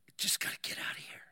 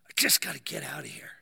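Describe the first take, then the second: First: Fast, soft, voiceless urgency; panicked whisper. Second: Low, forced, half-voiced urgency; desperate strained plea. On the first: Retold or imitated. Claustrophobic man muttering to himself, fast panicked whisper. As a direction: whisper it quickly, desperate to escape. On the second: Claustrophobic man at breaking point, desperate strained plea. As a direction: push the whisper up into a low, desperate rasp. Third, stronger take of panicked plea.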